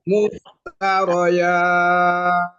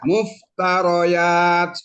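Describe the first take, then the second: First: The long vowel is held for six counts. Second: The long vowel is held for two counts.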